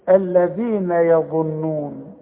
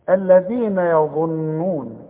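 The two takes are said the same way.

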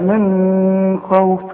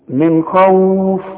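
First: The n sound is nasalized and held before kh. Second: The n sound is clear with no nasal hold. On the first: The speaker calls it wrong. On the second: The speaker calls it right.

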